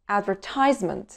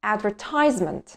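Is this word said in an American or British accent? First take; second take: American; American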